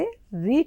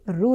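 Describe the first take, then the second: First: The letter is said with an 'ee' vowel. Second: The letter is said with an 'oo' vowel. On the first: This is how it sounds in Hindi. The speaker calls it right. "इसे री का उच्चारण किया जाता है" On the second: This is how it sounds in Telugu. The speaker calls it wrong. "रू नहीं"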